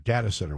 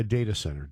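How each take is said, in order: First: DATA said "DAT-uh"; short-A data. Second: DATA said "DAY-tuh"; long-A data. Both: Shown as a demonstration. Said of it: "whatever you wanna call it".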